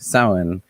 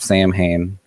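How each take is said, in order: First: The middle 'mh' is nearly silent. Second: The middle 'mh' is clearly pronounced as letters. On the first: The speaker calls it right. "M H is generally silent ish" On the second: The speaker calls it wrong. "It's not Samhain. People will murder you over that pronunciation"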